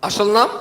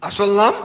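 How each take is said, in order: No difference in how they are said.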